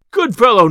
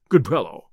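First: Loud, high indignant echo; indignant retort. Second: Said in the usual way. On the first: A narrator's reading. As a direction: throw GOOD FELLOW back sharply. Landlord throws the words back indignantly.

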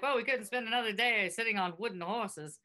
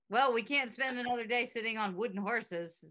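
First: Put-on old-timey announcer voice; 1930s radio announcer. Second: Put-on old-timey announcer voice; lightly clipped vintage radio delivery; 1930s radio announcer. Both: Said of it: "[name] sounds like a nineteen thirties radio announcer".

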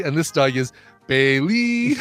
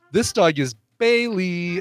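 First: And this dog is Bailey, bai-LEY stressed on the end with a rise; stress on last syllable. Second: This dog is Bailey, BAI-ley stressed on the first syllable. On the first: Demonstrating dog names to friends, stress on LEY. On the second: Demonstrating dog names to friends, stress on BAI. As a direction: lean on the BAI of Bailey, drawn out. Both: Shown as a demonstration. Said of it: "put the emphasis on a different syllable".

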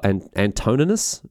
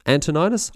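First: "Antoninus" with a long "oh" in the middle, an-TOH-nin-us; uncertain pronunciation. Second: "Antoninus" with an "eye" sound, an-tuh-NYE-nus; uncertain pronunciation. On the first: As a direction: try "Antoninus" as an-TOH-nuh-nus, questioning. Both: Shown as a demonstration. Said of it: "I don't know how it's pronounced".

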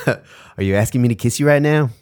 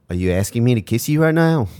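First: Higher-pitched mock Antipodean accent, second attempt; Australian/New Zealand accent. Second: Mock Antipodean accent, pitched a bit higher; Australian/New Zealand accent. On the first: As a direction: put on his Australian or New Zealand accent with more conviction. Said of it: "That was good". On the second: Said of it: "I couldn't do that accent".

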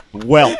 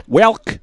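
First: "Welk" said with a K on the end; saying welk. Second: "Welk" high and rising, incredulous; mocking welk. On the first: Retold or imitated. Friend mocks his word "Welk" with a K. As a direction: quote his "Welk" with a hard K. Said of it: "by saying". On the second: Friend repeats the odd word "Welk" mockingly. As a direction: echo "Welk" in disbelief. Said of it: "That's not a word".

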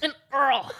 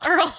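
First: Oral said as Earl, with the vowel blurred to ur; oral sounding like Earl. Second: Earl said clearly as the name, ur-l. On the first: Real, not acted. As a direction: slur oral so it comes out Earl. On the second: Shown as a demonstration. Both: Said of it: "Sounds like you're saying Earl".

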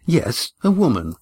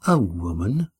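First: Said in the usual way. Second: Disbelieving question; can't believe it's a woman; incredulous. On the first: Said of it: "replied Estrella". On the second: A narrator's reading. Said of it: "Oron's voice was incredulous".

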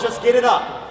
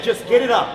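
First: Said in the usual way. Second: Mock shout. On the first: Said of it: "But then he goes". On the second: Retelling the friend's go-ahead as a mock shout. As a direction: bark the order like the friend did. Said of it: "He said".

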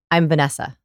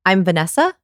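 First: "Vanessa" falling firmly at the end; downward inflection. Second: "Vanessa" swept sharply up like a question; exaggerated question inflection. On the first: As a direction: state it with certainty, dropping on "Vanessa". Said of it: "use the downward inflection". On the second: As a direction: overdo the asking rise on "Vanessa". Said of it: "I'll do it even more hard". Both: Shown as a demonstration.

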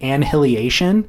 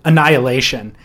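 First: "Annihilation" said as an-hilly-AY-shun; mispronunciation. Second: "Annihilation" said uh-NY-uh-LAY-shun; correct pronunciation. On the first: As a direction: sound out "Annihilation" as "and hilly-ation". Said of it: "thinking that's how you now pronounce the word". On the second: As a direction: say "Annihilation" with a silent h and stressed NY. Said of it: "make a stab at the word". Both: Retold or imitated.

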